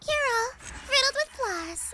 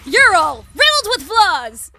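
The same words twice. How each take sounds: First: It is said quietly, in Alice's manner. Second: It is said loudly and heroically, like Sweetie.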